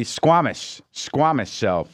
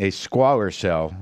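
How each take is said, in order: First: "squamous" with an M in the middle, drawn out first; slowly find the word "squamous", then repeat it; corrected pronunciation. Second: "squalor" said with an L, like squalid filth; mispronounced squamous. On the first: Radio host correcting himself on the cancer's name, "squamous" with M. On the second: Radio host unsure of the cancer's name, mispronouncing it "squalor". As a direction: slowly try "squalor" in place of squamous. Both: Real, not acted. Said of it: "Is that how you say it?".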